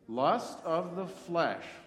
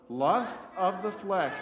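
First: It is said at a normal volume. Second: It is said very loudly. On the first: "Say that with me" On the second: "really loud"

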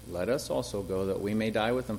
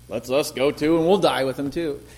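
First: It is said in a matter-of-fact tone. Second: It is said in a sarcastic tone.

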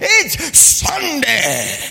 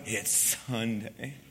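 First: It is said in a cheerful, jolly tone. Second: It is said in a tired, groaning tone.

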